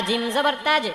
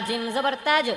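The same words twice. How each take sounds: No difference in how they are said.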